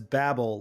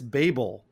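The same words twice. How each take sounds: First: The first vowel is short, like 'babble'. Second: The first vowel is long, like 'bay'. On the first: The speaker calls it wrong. "I had said it as Babel, like baby Babel" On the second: The speaker calls it right. "It's Babel, like the Tower of Babel"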